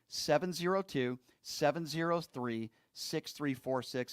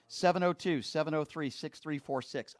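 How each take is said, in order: First: The number is read at a slower pace. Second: The number is read at a quicker pace.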